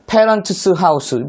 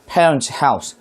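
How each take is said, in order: First: An extra 'es' syllable is added after parents. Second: No extra syllable is added after parents. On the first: The speaker calls it wrong. "발음이 이상하죠" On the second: The speaker calls it right. "그냥 parents house"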